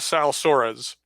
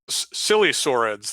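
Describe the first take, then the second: First: The first part does not sound like 'silly'. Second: The first part sounds like the word 'silly'. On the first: The speaker calls it right. "At least I think that's how you pronounce it" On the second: The speaker calls it wrong. "that that just doesn't sound right to me"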